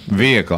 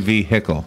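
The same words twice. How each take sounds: First: The H sound in the middle is silent. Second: The H sound in the middle is heard. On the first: "that is how I say it ... I don't enunciate the H" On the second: "I don't say"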